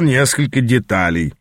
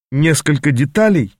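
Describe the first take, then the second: First: Said in the usual way. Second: Incredulous echo. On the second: Acted. Apprentice echoing his mentor's words, mildly incredulous. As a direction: repeat «деталей» back, not believing it. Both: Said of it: "недоверчиво переспросил я".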